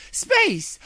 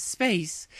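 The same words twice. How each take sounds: First: Exclaiming. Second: Musing princess. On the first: Luna to herself, suddenly sure of the plan, shouting. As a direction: Space shouted much higher and louder. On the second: Luna repeats the word. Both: Acted.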